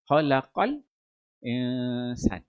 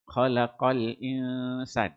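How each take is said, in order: First: A brief breathless pause comes before 'insan'. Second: It flows straight into 'insan' without a pause. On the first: "Dan juga dia boleh sakta" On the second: "Maksudnya dia baca dengan tahqiq"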